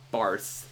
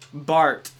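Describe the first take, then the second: First: The name ends with a 'th' sound. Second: The name ends with a plain 't' sound. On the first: The speaker calls it wrong. "they see the H at the end of the name and they think it's Barth" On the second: The speaker calls it right. "Bart. It's Swiss"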